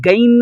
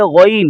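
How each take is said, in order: First: "غین" as a thin hard-g "gain"; wrong thin ghain. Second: "غین" thick and rounded, like "ghoin"; heavy ghain. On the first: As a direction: flatten "غین" into an everyday "gain". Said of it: "یہ غین نہیں ہے". ("غین" کا باریک، غلط تلفظ) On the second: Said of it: "اور موٹا کریں گے". ("غین" موٹا کر کے) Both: Shown as a demonstration.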